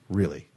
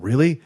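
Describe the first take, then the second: First: Said in the usual way. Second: Rising, louder "Really?" in amazement; surprised really. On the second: Retold or imitated. Bandmates stunned by the news, rising amazed "Really?". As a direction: toss up "Really?" with a high, loud, amazed rise. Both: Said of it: "They're like".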